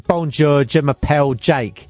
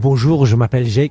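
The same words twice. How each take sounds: First: It is said with a flat English accent. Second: It is said with a committed French accent.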